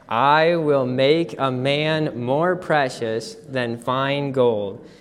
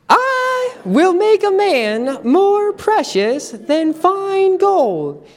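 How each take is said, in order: First: It is said in a normal speaking voice. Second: It is said in a high-pitched voice.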